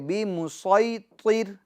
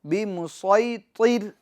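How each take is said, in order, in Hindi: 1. s की आवाज़ भारी और ज़ोरदार है। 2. s की आवाज़ भारी और ज़ोरदार है।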